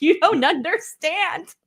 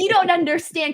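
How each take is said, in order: First: Higher, slow, stretched-out pleading; drawn-out whiny plea. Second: Higher, pleading retold protest to husband; whiny retold plea. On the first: Retold or imitated. Retelling to the host her protest to husband, slower whiny plea. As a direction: drag it out, begging him to get it. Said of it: "And I'm like". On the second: Retelling to the host her protest to husband, whiny and pleading. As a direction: whine it up at him like she did. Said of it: "And I was like".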